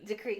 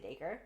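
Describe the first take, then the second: First: The name sounds like the word decree. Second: The name sounds like daker, rhyming with acre. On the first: The speaker calls it wrong. "So I was calling it that when I first read this book" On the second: The speaker calls it right. "there's actually pronunciations"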